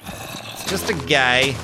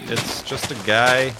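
First: Slow, drawn-out goofy voice; silly put-on voice. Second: Said in the usual way. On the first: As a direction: repeat it in a goofy character voice. Repeats the line in a put-on voice.

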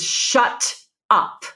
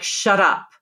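First: Breathy hushed shut up; whispered. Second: Said in the usual way. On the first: Shown as a demonstration. Coach contrasting a whispered shut up. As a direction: hiss it under the breath. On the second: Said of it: "If I say something like".

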